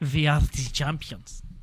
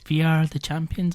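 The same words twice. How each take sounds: First: It is said in a put-on German accent. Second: It is said in the speaker's ordinary accent.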